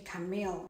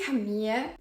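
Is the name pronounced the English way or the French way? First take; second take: English; French. First: The name is pronounced with English sounds. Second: The name is pronounced with French sounds. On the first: "in English it should be Camille" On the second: "because I live in France and that's how you would pronounce this name"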